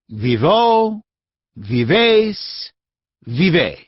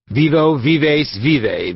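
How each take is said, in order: First: It is said slowly and distinctly. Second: It is said in a rapid mutter.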